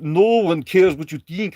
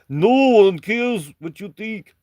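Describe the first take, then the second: First: It is read in the speaker's ordinary accent. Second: It is read in a put-on Russian accent.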